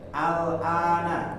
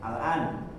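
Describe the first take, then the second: First: The word ends with a final vowel sound. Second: The word ends on the consonant 'n'.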